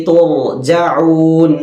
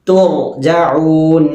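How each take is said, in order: Both takes have the same delivery.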